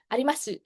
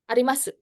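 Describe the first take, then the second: First: The final u is fully voiced with rounded lips. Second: The final u is barely heard, ending quickly. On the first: The speaker calls it wrong. "Jadi nggak monyong kayak Indonesia. Nggak digituin" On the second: The speaker calls it right. "mulutnya langsung ketutup"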